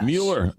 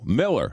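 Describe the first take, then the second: First: The first vowel sounds like 'mew'. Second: The first vowel sounds like 'mill'. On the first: The speaker calls it wrong. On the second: The speaker calls it right. "but you pronounce it Miller"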